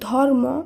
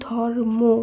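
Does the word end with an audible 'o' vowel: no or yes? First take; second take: no; yes. First: The word ends without a final 'o' vowel. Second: The word ends with a final 'o' vowel. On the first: The speaker calls it wrong. "ধর্ম নয়" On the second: The speaker calls it right. "শব্দটির উচ্চারণ হবে ধর্ম"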